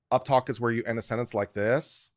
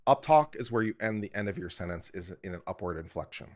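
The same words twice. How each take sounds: First: Statement with a questioning rise on "this"; louder demonstration of uptalk, "this" ending high; uptalk demo. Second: Said in the usual way. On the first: Shown as a demonstration. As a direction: swing "like this" upward as if asking a question.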